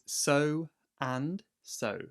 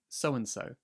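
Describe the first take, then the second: First: The phrase is said slowly, words kept apart. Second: The phrase is said quickly, run together.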